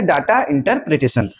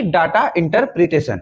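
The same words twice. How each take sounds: First: "data" stressed, slow and deliberate; slow, spelled-out repeat. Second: Said in the usual way. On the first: Shown as a demonstration. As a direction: repeat it slowly so students note it. (धीरे और ज़ोर देकर "data interpretation") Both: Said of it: "क्या बोला जाता है?".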